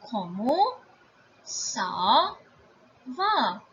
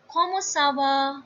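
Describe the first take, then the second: First: "Comment ... ça ... va" with gaps; word by word. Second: Said in the usual way. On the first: Shown as a demonstration. Teacher introducing the informal question, word by word. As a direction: set each word apart, drawing it out. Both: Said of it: "informal way of asking".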